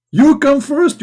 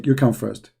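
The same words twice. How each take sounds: First: Very high, loud insistence; hammed-up yelled command; mock shout. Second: Said in the usual way. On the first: Shouted quote inside mock threat.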